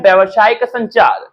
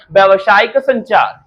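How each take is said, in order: First: Said in the usual way. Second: Slowed, deliberate repeat of व्यावसायिक संचार. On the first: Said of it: "Hindi में इसको क्या बोलते हैं?". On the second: Shown as a demonstration. Teacher repeating the term for students to memorise, slowly. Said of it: "क्या बोलते हैं?".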